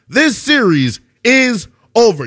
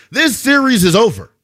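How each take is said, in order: First: "This series... is... over", spaced out with pauses; drawn-out verdict, pausing before "is" and "over"; emphatic declaration. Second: Said in the usual way. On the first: Real, not acted. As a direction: break up "This series is over" slowly for finality. Repeats verdict emphatically, calling it.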